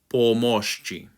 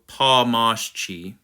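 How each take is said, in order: First: The O vowels are solid, pure O sounds. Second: The O vowels are altered, not a pure O. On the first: The speaker calls it right. "make sure you just have that solid O sound" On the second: The speaker calls it wrong. "Don't go"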